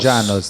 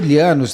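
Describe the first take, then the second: First: The name begins with a J sound. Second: The name begins with an LY sound. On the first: "Dois ele tem som de J" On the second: "é ou Lianos também"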